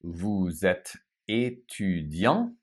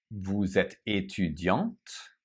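First: Vous êtes étudiant with a silent final t; étudiant said slowly, final T silent; French masculine ending. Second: Vous êtes étudiante with the final T sounded; étudiante said slowly, ending on a crisp T; French feminine ending. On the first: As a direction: say étudiant ending on a nasal vowel, no T. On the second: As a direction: say étudiante with a clear T at the end. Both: Shown as a demonstration. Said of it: "pay close attention to the E here".

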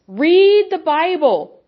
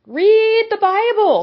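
First: Said in the usual way. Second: Higher and slow, pressing hard; raised urgent command. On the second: Real, not acted.

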